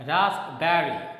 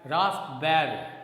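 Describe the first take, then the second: No difference in how they are said.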